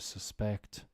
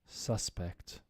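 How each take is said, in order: First: The stress is on the second syllable. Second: The stress is on the first syllable. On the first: It is used as a verb. "to suspect" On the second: It is used as a noun. "think of it now as nouns"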